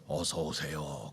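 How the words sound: The greeting is said at a very low pitch. "아주 저음으로"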